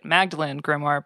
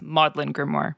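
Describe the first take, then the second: First: Magdalen is said as spelled, with a g. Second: Magdalen is said like maudlin, without a g. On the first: The speaker calls it wrong. "pronounce it as you familiarized yourself with it" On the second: The speaker calls it right. "but it's"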